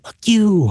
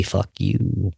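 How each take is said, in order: First: Higher, sharp curse from nowhere; hostile voice in head. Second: Low, quiet, menacing inner voice; a dark voice hissing low and soft; hostile voice in head. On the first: House spirit cursing at him, pitched high and sharp. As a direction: spit it out like an unseen presence. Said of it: "I hear in my head". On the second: Voice inside his head cursing at him, low and menacing. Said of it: "my head say". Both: Retold or imitated.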